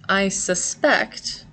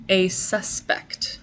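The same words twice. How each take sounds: First: "suspect" slow, stressed on the second syllable, sus-PECT; verb stress. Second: "suspect" slow, stressed on the first syllable, SUS-pect; noun stress. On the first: Teacher showing the verb "suspect" to students, slow and clear. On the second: Teacher showing the noun "suspect" to students, slow and clear. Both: Shown as a demonstration. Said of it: "They are pronounced differently".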